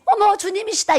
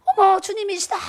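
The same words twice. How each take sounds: First: High, loud cry of awe; awed exclaiming. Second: Awed exclaiming. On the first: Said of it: "뭐라고 외쳤는지 아세요". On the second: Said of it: "그랬어요". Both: Retold or imitated. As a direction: shout it out as if seeing the Lord. (감격해 외치는 목소리)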